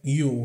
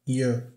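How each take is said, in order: First: The word is said with a full 'oo' vowel. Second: The word is reduced to a short 'ya' sound. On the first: "Isso aqui é you" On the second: "Muitas vezes ele pode soar como ya"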